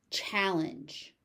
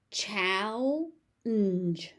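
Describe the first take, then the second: First: Said in the usual way. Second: "Challenge" stretched into two slow syllables; overpronounced. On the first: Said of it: "I will say the word normally". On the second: Shown as a demonstration. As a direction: say "Challenge" with a long first syllable, then a separate "-nge". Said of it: "I will overpronounce it".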